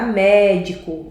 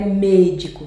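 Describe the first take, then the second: First: Médico with a wide, stretched MÉ; open E. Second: Médico mispronounced as mêdico; closed E. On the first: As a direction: open and lengthen the first vowel of Médico. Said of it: "É mé". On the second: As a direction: close the first vowel of médico to ê. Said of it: "Senão ficaria médico". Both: Shown as a demonstration.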